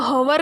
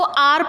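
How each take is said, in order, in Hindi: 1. यह शब्द h की ध्वनि से शुरू होता है। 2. यह शब्द स्वर से शुरू होता है, इसमें h नहीं है। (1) "इसको हवर नहीं पढ़ते" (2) "इसको आर पढ़ते हैं"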